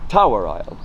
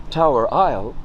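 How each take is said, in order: First: TOWER punched, Isle dropping away; accent TOWER and let Isle fall; stress on TOWER. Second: Said in the usual way. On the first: Shown as a demonstration. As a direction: put the emphasis on the first word, Tower. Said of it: "put the emphasis on the first word". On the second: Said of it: "Instead of saying".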